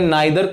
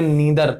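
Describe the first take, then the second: First: The first vowel sounds like 'eye'. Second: The first vowel sounds like 'ee'. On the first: "नाइदर आपका British था" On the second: "नीदर आपका American था"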